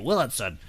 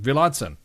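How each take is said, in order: First: The surname is said with an American-style pronunciation. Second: The surname is said with a German-style pronunciation. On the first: "I'll say it like you" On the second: "I've said like a German, like Willadson"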